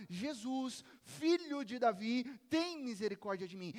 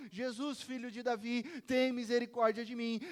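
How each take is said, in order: First: Raised voice, mildly imitating a shout; crying out. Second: Loud pleading shout, building on the plea; shouting louder. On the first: Blind beggar calls to Jesus for mercy, crying out. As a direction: call out in a moderate mock cry. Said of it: "começou a gritar". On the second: Acted. Beggar shouting to Jesus over the crowd, shouting louder. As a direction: cry out over a scolding crowd. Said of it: "ele gritava ainda mais alto".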